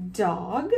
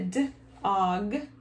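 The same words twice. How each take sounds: First: Said in the usual way. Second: "d-og" split into onset and rime; sounded out. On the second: Shown as a demonstration. Teacher showing children how to read a word, sounded out. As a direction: sound out d, then og. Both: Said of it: "it's gonna be about a d-og".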